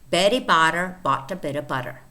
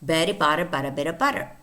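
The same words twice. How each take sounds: First: It is said slowly. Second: It is said fast.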